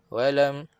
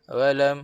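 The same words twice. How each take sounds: No difference in how they are said.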